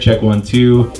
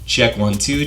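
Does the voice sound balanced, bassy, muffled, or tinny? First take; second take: muffled; tinny. First: The voice sounds dull and muffled, lacking treble. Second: The voice sounds bright and tinny, with strong treble. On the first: "You don't hear any of that high end at all, hearing mostly low end really" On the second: "you hear a lot more presence in my voice, and it's almost like a tinny sound"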